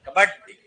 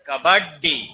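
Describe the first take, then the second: First: The consonants are run together quickly and casually. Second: Each consonant is articulated slowly and separately. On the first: This is how people say it in everyday speech. "तो हम सीधा क्या बोलते हैं?" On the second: This is the pure, standard pronunciation. "ये है शुद्ध उच्चारण"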